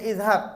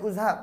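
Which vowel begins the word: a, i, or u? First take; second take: i; u. First: The word begins with an i vowel. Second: The word begins with a u vowel. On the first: The speaker calls it right. "kena baca kasrah" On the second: The speaker calls it wrong. "tak boleh"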